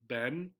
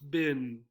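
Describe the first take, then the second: First: The vowel is a short e, like 'Ben'. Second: The vowel is a short i, like 'bin'. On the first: "the correct or the standard pronunciation of Ben. Sounds just like this" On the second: "we do hear a lot of bin"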